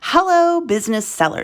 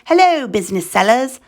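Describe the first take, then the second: First: It is said in the speaker's normal accent. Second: It is said in a put-on foreign accent.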